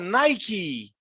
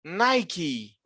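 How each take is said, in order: No difference in how they are said.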